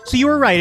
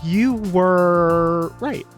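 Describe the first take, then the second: First: It is said at normal speed. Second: It is said slowly.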